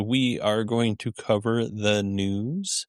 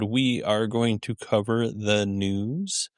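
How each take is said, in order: First: It sounds unsure, rising like a question. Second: It sounds unsure, rising like a question.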